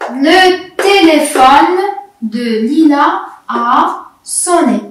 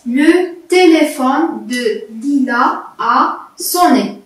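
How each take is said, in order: First: Slow model reading. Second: Répété lentement et posément; slow repeat. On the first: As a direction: lecture lente, mot à mot. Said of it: "Je vais lire une petite phrase". (lecture modèle lente) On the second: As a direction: redis la phrase doucement, sans presser. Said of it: "je répète". (répétition lente) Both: Shown as a demonstration.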